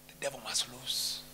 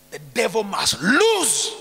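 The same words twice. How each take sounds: First: Very low, soft, distant; low far-off rumble. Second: Louder, slow, each word weighted; slow forceful declaration. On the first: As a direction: growl it low and quiet. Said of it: "repeated louder". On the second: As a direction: declare it slowly and firmly. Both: Shown as a demonstration.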